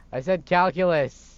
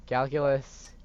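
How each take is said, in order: First: Calculus said louder and slower, stressed; repeating calculus firmly to a doubting mom; louder, insistent repeat. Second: Said in the usual way. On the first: Acted. Son repeating calculus insistently to his mom.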